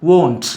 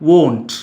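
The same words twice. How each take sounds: The two takes are said the same way.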